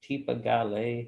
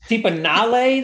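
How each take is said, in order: First: The second part starts with a G sound. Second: The second part starts with an N sound. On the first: The speaker calls it wrong. "Am I saying his name right" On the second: The speaker calls it right. "the G is pronounced as an N"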